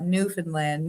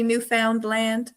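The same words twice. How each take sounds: First: "Newfoundland" as NEW-fn-land, the middle swallowed to a quick "fn"; "Newfoundland" the way folks from there say it, stress on "New", middle almost gone; local pronunciation. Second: "Newfoundland" as new-FOUND-land, the middle syllable rhyming with "found"; "Newfoundland" spoken like a tourist, every syllable spelled out; outsider's pronunciation. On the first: Shown as a demonstration. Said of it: "but Newfoundland". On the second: Retold or imitated. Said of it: "people from away say".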